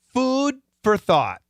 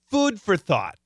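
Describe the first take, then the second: First: It is read slowly and carefully for repeating. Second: It is read at a normal conversational pace. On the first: It is a model for listeners to repeat. "The first time, repeat after me" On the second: It is ordinary natural speech. "The second time, I'll be somewhat normal"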